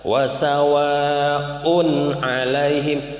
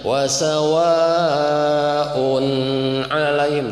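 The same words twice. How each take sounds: First: The 'un' sound is pronounced clearly. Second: The 'un' sound is held back. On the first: The speaker calls it right. "un dibaca jelas" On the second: The speaker calls it wrong. "jangan ditahan Pak"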